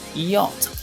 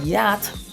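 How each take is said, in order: First: It is said with a British pronunciation. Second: It is said with an American pronunciation.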